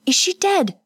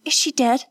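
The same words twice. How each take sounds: First: Put-on woman panicking over the fallen girl; rising terror. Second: Higher, worried question; first anxious ask before panic sets in; frightened. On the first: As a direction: voice climbing in terror on dead. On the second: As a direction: ask it scared but still holding together. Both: A narrator's reading. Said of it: "Kazuko's voice rose with terror".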